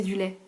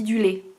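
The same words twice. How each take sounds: First: Du lait with an open è, lè; standard lait. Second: Du lait said with a closed é, like lé; Norman lait. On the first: Correcting her Norman vowel, standard open è. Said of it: "sauf que c'est du lait". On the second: Showing her Norman accent to viewers, closed é. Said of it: "on prononce ça et". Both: Shown as a demonstration.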